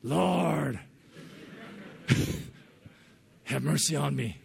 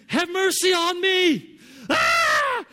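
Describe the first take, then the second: First: Awkward try. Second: Slow, high, very loud pleading shout; Loke's loud prayer. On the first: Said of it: "it felt kinda awkward". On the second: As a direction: beg for mercy at full volume, stretching it out. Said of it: "when he prays, he's really loud". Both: Retold or imitated.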